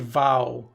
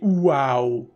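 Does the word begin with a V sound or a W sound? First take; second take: V sound; W sound. First: The word begins with a buzzing V sound. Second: The word begins with a rounded W sound. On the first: This is how Russian speakers actually say it. "we just do V for everything" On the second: This is the English way to say it. "we don't say wow"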